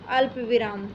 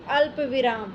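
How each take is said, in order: No difference in how they are said.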